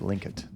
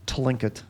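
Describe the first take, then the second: First: The word starts without a T sound. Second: The word starts with a T sound. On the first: The speaker calls it right. "Like the T is silent" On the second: The speaker calls it wrong. "Not Tlinkit"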